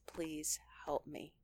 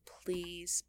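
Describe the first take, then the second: First: Whispered, slow, desperate plea; hushed prayer for help. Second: Said in the usual way. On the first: Shown as a demonstration. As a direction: beg God under your breath. Acted prayer when losing temper.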